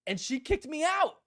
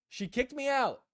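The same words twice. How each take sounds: First: Kicked-me-out line pitched way up with a rising end; indignant punchline. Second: Said in the usual way. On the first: Real, not acted. Telling viewers how Leia threw him out, pitched high in mock outrage. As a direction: land it high, half outraged and half amused.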